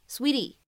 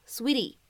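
The two takes are said the same way.

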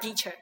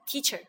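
First: The word starts with a d-like sound. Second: The word starts with a clear t sound. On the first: The speaker calls it wrong. "not teacher" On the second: The speaker calls it right. "When T is stressed, they still pronounce as T, like teacher"

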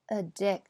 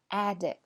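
First: The first vowel is a weak schwa sound. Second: The first vowel is a full open 'a' sound. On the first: It is the verb. "在动词的时候呢则变成了一个schwa 音" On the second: It is the noun. "在名词的时候发的是梅花i"

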